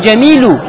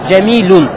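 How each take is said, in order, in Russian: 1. Слово заканчивается на гласный без n. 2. Слово заканчивается на добавленный звук n. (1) "Не «джамилю»" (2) "Ставишь «танвин» в конце"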